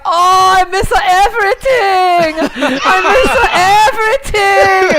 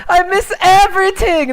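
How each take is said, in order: First: High, slow, laughing wail; hammed-up "I miss everything" lament; whiny Jackie impression. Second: High "I miss everything" whine, normal pace; quick repeat of the tired lament; mock whining player; whiny Jackie impression. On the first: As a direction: whine it like a tired player giving up. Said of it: "And Jackie's like". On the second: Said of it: "Jackie's like".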